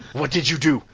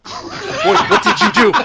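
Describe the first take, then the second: First: Restrained first accusation, near usual pitch; accusing mother. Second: Very high, very loud hammed-up yell; mother's angry shriek. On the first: Acted. Mother turning on her boy, restrained accusation. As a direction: ask it pointedly, holding back the yell. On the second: Mother starting after her boy, shrieking accusation. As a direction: explode in a piercing mock-mother screech.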